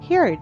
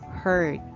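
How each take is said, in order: First: The word rhymes with beard. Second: The word does not rhyme with beard. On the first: The speaker calls it wrong. "I might just simply say heard. Unfortunately, again, it's not" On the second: The speaker calls it right. "We have heard"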